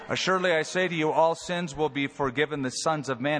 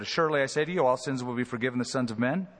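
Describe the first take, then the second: First: It is said slowly. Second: It is said fast.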